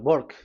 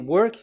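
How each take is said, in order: First: The word begins with a B sound. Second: The word begins with a W sound. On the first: "W is pronounced as B. ... they say uh, work" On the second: "So if you say work"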